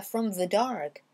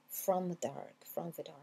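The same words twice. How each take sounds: First: THE said with a strong V, "from vuh dark"; hard V. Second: FROM THE DARK softer, THE barely sounded. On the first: Teacher shows the overdone way, THE with heavy V. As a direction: push the consonant of THE hard. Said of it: "C'est pas from the dark". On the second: Teacher shows learners the elided V, very soft. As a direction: let THE almost vanish, dropping the voice. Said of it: "vraiment très doux". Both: Shown as a demonstration.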